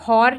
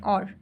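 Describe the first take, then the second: First: The word starts with an h sound. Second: The word starts with a vowel sound. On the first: The speaker calls it wrong. "अब इसमें हॉर नहीं बोल रहे" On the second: The speaker calls it right. "और बोल रहे हैं"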